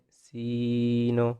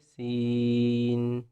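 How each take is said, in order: First: The word ends with an added short vowel. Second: The word ends cleanly and smoothly, no added vowel. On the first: The speaker calls it wrong. "बाज़ लोग इसको पढ़ते हैं सीनो" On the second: The speaker calls it right. "आखिर में न नहीं करना बल्कि सीन, बिल्कुल स्मूथ"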